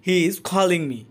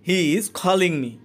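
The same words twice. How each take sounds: The two takes are said the same way.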